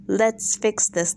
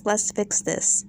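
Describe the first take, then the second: First: Said in the usual way. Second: Soft, slow placating tone; fake soothing Lisa voice. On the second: Lisa placating Garcelle in a soft, slow, fake voice. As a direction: mimic her sudden fake calm. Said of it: "she was like".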